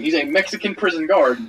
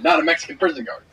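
First: "Mexican prison guard" with the weight landing on "guard"; correcting a friend: "guard" carries the stress. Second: "not" hit hard, the rest falling away; correcting a friend: "not" gets the stress. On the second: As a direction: punch "not" and let "a Mexican prison guard" drop. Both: Shown as a demonstration.

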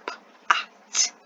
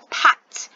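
First: "pat" broken into "p", pause, "at"; sounding out. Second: Said in the usual way. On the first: Shown as a demonstration. Teacher introducing a word to pupils, sounding out. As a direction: slowly separate the first sound of "pat" from the rest. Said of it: "So this is". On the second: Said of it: "The word is".

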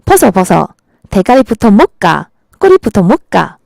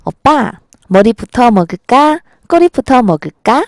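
First: Imitated punchy Gyeongsang intonation; Gyeongsang woman's accent. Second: Sweetly imitated Seoul intonation, questions lifting at the end; Seoul woman's accent. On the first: Gyeongsang woman asks about fish-bread, imitated Gyeongsang accent. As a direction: put on a blunt Gyeongsang dialect. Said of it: "경상도 여자들은". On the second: Seoul woman asks boyfriend about fish-bread, imitated Seoul accent. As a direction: ask it like a Seoul girlfriend, lilting Seoul accent. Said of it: "서울 여자들은". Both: Shown as a demonstration.

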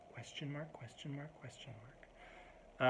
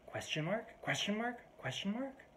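First: Very soft, offhand mutter; passive toss-off. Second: High rising incredulous query, softer; each one lifting sharply into a question. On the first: Annoyed person throwing it out to you, softly passive. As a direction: toss it out under your breath. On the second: Group member writing back to joke, incredulous rising query. Acting out a curt reply email. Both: Retold or imitated.

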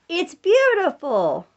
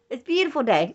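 First: Put-on drawn-out, high and bright for a toddler to copy; slow sing-song prompt to a toddler; slow, coaxing prompt. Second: Said in the usual way. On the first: Shown as a demonstration. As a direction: stretch it slowly so the baby can repeat. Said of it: "Can you say".

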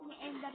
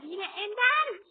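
First: Said in the usual way. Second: Drawn out, loud and higher; exasperated. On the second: Real, not acted. Gamer losing to Ender again, slow loud exasperated cry. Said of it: "Çıldırmak üzereyim".

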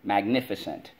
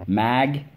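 First: Said in the usual way. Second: MAGNIFICENT split into mag, ni, fi, cent, starting loud; syllable by syllable. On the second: Shown as a demonstration. Teacher leading spelling class, syllable by syllable. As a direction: chant Magnificent with a pause after each syllable. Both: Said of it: "let's go in three syllables".

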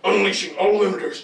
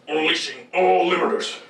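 First: Robot announcer voice. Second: Steady mechanical read; robot announcer voice. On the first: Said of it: "Just do it without the funny". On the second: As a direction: say it straight like a machine. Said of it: "What did I just say?". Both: Shown as a demonstration.

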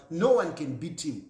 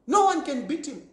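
First: Said in the usual way. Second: "No" hit higher and louder, the whole line raised; emphatic repeat. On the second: Real, not acted. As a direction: hammer home "No one" with a raised, louder voice. Repeated claim, then emphasized.

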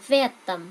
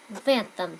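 First: В этом run together as one word, vetom; linked reading. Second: В этом with the stress on E; linked в этом, E stressed. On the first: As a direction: link в into этом. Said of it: "các bạn đọc nối âm giúp mình". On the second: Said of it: "trọng âm vào chữ E". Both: Shown as a demonstration.

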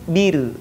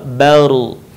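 First: 'bir' softer, with a light, thin closed r. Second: 'baru' as a low 'bar' with a full, heavy closed r; thick r. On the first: Teacher showing r after kasrah, soft thin 'bir'. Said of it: "maka terdengar tipis". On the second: Teacher showing r after fathah, thick heavy 'baru'. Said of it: "maka suaranya terdengar menebal". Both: Shown as a demonstration.

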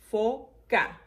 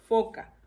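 First: "Foca" split into fo, ca; syllable by syllable. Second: Said in the usual way. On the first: Shown as a demonstration. Teacher reviewing the words, "Foca" broken fo... ca. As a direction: pause between fo and ca in "Foca". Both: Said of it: "vamos a repasar las palabras".

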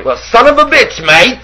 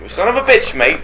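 First: High, camp Irish put-on with a flip of the wrist; mock Irish accent. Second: Mock Irish accent. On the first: Cohost teasing his friend with a hammed-up Irish accent. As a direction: send up an Irish tough guy, hammed-up. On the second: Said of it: "you said".

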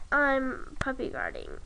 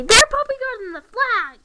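First: Said in the usual way. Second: Loud, higher indignant call-out; loud accusing call. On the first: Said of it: "If she's allowed to say". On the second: Retold or imitated. Kid tattling on the other players, indignant loud call. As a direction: call it out to the whole table. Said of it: "then I'm allowed to say".

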